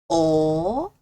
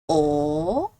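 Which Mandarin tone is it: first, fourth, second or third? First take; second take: second; second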